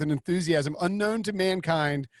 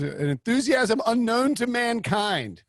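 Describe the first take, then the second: First: Said in the usual way. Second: High, slow, drawn-out quote voice; Jim Harbaugh. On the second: Acted. Host quoting a coach's famous line, high drawn-out impersonation. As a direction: stretch it out as a grand, high-pitched proclamation. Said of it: "what Jim Harbaugh's line was".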